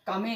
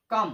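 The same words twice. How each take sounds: First: "कमे" in two syllables, final E sounded; wrong pronunciation. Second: "कम" as one syllable ending on m; silent E. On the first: Teacher showing how not to read come, wrong pronunciation. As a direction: voice the silent E, ka-me. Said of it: "नहीं पढ़ते". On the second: Teacher modelling the right reading of come, silent E. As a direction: stop "कम" on the m, no final E. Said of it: "ये silent होता है". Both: Shown as a demonstration.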